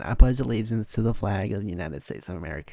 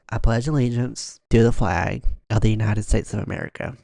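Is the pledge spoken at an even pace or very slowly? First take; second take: even; slowly. First: It is spoken in an even, constant tone. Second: It is spoken very slowly and drawn out. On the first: This is how most people say it. "you would say it in a constant tone" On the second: This imitates one particular person's style. "She would start so slow"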